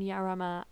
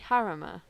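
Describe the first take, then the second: First: The name begins with a Y sound. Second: The name begins with an H sound. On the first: "I'm saying Yarama because it starts with a J" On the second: "So it'd be Harama"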